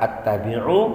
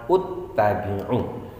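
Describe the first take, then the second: First: The word begins with an a vowel. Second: The word begins with a u vowel. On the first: "bukan dibaca attabi'u" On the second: "juga bukan dibaca uttabi'u"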